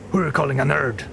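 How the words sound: It is said in a put-on Batman voice.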